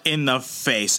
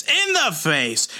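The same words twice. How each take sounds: First: Said in the usual way. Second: "In the face" pitched high and drawn out; dramatic emphasis. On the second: Real, not acted. Recapping the mace blow, "In the face" high and drawn-out. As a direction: stretch "In the face" slowly, up high. Repeats phrase for dramatic effect.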